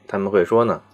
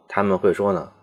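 Both takes have the same delivery.

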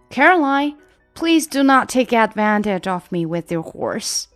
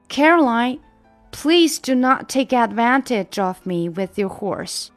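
First: The sentence is spoken at a faster pace. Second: The sentence is spoken at a slower pace.

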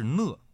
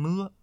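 First: The word has its standard Mandarin pronunciation. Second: The word has a local northeastern pronunciation. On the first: "正确的读音呢应该是讷" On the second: "在齐齐哈尔和周边的地区，很多人都愿意把这个字儿读成讷"

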